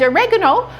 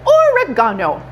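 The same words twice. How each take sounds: First: It is said in an American accent. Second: It is said in a British accent.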